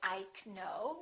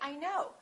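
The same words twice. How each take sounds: First: The K at the start is pronounced. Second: The K at the start is silent. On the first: The speaker calls it wrong. "We don't say" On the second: The speaker calls it right. "we say; the K is silent"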